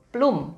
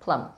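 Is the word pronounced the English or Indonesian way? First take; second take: Indonesian; English. First: It is read the way Indonesian spelling sounds. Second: It is pronounced with English sounds. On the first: "di supermarket banyak sudah ditulis plum penulisannya ya" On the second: "tapi bacanya plum"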